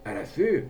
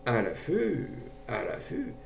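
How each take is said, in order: First: Higher, rising echo of disbelief; surprised question. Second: Hesitant musing. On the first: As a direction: question the invitation, taken aback. Gendarme astonished at invitation. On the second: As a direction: repeat it slowly to oneself, undecided. Gendarme hesitates, mulling it over. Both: A narrator's reading.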